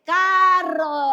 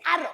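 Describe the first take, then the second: First: "carro" loud and drawn out, starting on a firm C; slow, emphatic "carro", every sound stretched; corrected pronunciation. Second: "arro" with the first C dropped; quick "arro", starting straight on the vowel; child's mispronunciation. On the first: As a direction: model "caaa-rro" very slowly for a child. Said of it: "se dice carro". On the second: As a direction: mimic a toddler's "arro" for carro. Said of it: "No se dice arro". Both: Shown as a demonstration.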